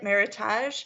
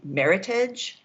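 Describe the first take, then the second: First: The name is pronounced the French way. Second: The name is pronounced the plain English way. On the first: "I like the French pronunciation better, so I'm going with it" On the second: "It could be Meritage"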